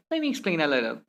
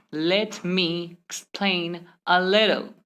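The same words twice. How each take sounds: First: "Let me" joined as "lemme"; merged letters. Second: Very slow, "Let" and "me" apart; one separate word at a time. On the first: Teacher repeating the faster example, merged words. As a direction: run the whole phrase together. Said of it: "simply say". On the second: Teacher repeating the slow example, word-by-word. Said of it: "Instead of saying". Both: Shown as a demonstration.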